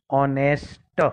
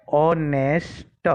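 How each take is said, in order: First: Said in the usual way. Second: ઓનેસ્ટ drawn out very slowly, no h sound, rising at the end; silent h in honest. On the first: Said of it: "એટલે શું થઈ ગયું?". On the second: Shown as a demonstration. Teacher showing students the silent h, drawn slowly. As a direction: stretch each sound of ઓનેસ્ટ, starting on the vowel. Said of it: "એમાં એચ બોલવામાં આવતો નથી".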